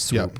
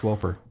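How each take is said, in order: First: The name is said as one short syllable. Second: The name is said with an extra syllable. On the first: The speaker calls it right. "It's Swoop" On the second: The speaker calls it wrong. "I'm just saying it wrong because Jay says things wrong"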